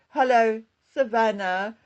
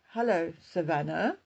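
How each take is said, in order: First: The greeting sounds warm and welcoming. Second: The greeting sounds sarcastic and bitter. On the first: The writer cares about the person addressed. "which could sound friendly, caring, or welcoming" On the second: The writer resents the person addressed. "which could sound sarcastic or bitter"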